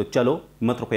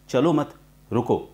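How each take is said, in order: First: "चलो", short break, "मत रुको" falling; pause after चलो. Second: Slow "चलो मत", pause, then "रुको"; pause after मत. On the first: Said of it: "के बाद कॉमा बताया". ("चलो" के बाद विराम) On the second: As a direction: join चलो मत, break before रुको. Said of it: "के बाद लगाते हैं". ("मत" के बाद विराम) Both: Shown as a demonstration.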